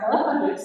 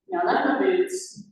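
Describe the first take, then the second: First: A lightly put-on Southern accent, a bit higher and louder; a mock Southern twang from the caller; strong Southern accent. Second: Put-on Southern accent. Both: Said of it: "strong Southern accent".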